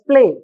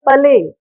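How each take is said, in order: First: The first two consonants blend together directly. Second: A vowel separates the first two consonants. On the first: The speaker calls it right. "It is play" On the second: The speaker calls it wrong. "We are not pronouncing them as pale"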